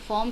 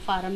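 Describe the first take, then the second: First: The vowel is a rounded 'aw' sound. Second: The vowel is an open 'ah' sound. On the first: The speaker calls it right. "इसका सही pronunciation English में तो फ़ॉर्म है" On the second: The speaker calls it wrong. "फ़ार्म भी बोल देते हैं कई लोग"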